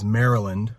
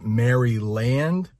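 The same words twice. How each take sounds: First: The name is said in a shorter local way. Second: Each part of the name is sounded as spelled. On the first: The speaker calls it right. "the way we pronounce it is Maryland" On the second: The speaker calls it wrong. "you might look at that and try to pronounce it Maryland"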